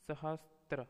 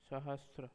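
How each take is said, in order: First: सहस्त्र with an extra t, "sahastra"; सहस्त्र ending in "-stra"; wrong pronunciation. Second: Said in the usual way. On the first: Shown as a demonstration. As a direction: put a "t" into सहस्त्र. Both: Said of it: "अशुद्ध, शुद्ध".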